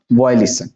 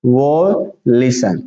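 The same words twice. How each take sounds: First: Said in the usual way. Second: Very slow, stretched "violation"; syllable by syllable. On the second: Shown as a demonstration. Teacher repeating for students, slowly broken up. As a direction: split "violation" into long separate parts. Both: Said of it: "क्या पढ़ेंगे".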